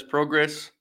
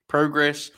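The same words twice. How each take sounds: First: "progress" with a short o, as in "prog". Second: "Progress" with a long o, as in "pro". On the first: Host testing one way on listeners, "progress" with short o. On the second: Host testing the other way on listeners, "Progress" with long o. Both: Shown as a demonstration. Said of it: "What is the way to talk about progress or progress".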